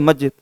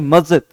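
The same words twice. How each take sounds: First: The middle consonant is a plain 'j' sound. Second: The middle consonant is a buzzing 'z' sound. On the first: "अगर मैं इसको normal बोलूं तो" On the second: "लेकिन नुक्ता के लिए हम प्रयोग करेंगे"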